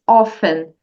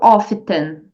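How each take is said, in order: First: The t sound is silent. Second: The t sound is pronounced. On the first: The speaker calls it right. "você não pronuncia, você só diz often" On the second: The speaker calls it wrong. "e não often"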